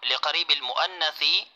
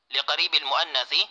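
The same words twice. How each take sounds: The two takes are said the same way.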